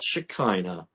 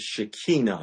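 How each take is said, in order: First: The word is pronounced in an English way. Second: The word is pronounced in a Hebrew way. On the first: The speaker calls it wrong. "not Shekinah, as we say in English" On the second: The speaker calls it right. "in Hebrew is Shekinah"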